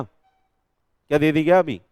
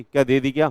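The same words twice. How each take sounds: First: क्या दे दी क्या अभी drawn out slowly, leaning on the first क्या; slowed, pointed teacher question; slow emphatic question. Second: Said in the usual way. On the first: Shown as a demonstration.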